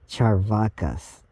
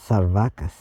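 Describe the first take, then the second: First: The word begins with a ch sound. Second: The word begins with an s sound. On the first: "C is pronounced like cha, so it's Charvakas" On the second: "or it might be pronounced Sarvakas"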